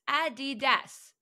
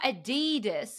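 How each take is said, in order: First: The middle vowel is a short i sound. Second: The middle vowel is a long ee sound. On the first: The speaker calls it right. "It's an I between the D's" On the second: The speaker calls it wrong. "Not Adidas. It's not an E or a double E"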